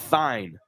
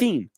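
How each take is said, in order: First: The name rhymes with 'fine'. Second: The name does not rhyme with 'fine'. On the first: The speaker calls it right. "it's like uh, like fine" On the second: The speaker calls it wrong. "it looks like it would be Thien"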